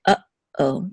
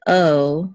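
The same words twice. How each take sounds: First: Uh-oh with a pause between uh and oh; distinct syllables. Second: Uh-oh slurred into one gliding "uhoh"; run together. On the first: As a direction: cut uh-oh in two. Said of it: "to make the two syllables distinct". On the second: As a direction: slide straight through uh-oh with no catch. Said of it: "We don't say oh". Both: Shown as a demonstration.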